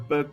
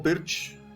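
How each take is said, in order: First: The name ends with a k sound. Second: The name ends with a ch sound. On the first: "most of us say Perk" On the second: "or Pirch, some people say"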